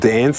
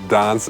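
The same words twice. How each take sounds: First: It is said with an American accent. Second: It is said with a British accent.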